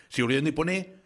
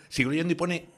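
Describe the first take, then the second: No difference in how they are said.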